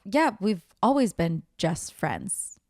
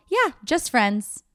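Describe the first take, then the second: First: Said in the usual way. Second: Drawn-out "Yeah, just friends" with weight on "just friends"; awkward slow "just friends"; stress on just friends. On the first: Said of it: "he's all, like, panicking". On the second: Retold or imitated. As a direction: lean slowly on "just friends". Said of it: "why the fuck do you need to emphasize just friends".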